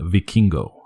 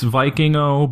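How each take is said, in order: First: The name is said with native Spanish sounds. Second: The name is said with plain English sounds. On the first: "They pronounce it a cool way. They pronounce it Vikingo" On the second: "it's Vikingo"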